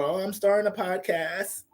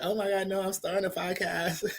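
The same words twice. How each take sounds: First: Put-on airhead girl voice. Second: Put-on higher, softer, ditzy airhead girl; ditzy girl voice, breezy and high; airhead ratchet voice. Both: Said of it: "the airhead ratchet voice".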